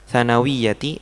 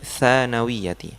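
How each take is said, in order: First: The first vowel is said short. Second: The first vowel is said long. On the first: The speaker calls it wrong. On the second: The speaker calls it right. "yang panjang tha-nya"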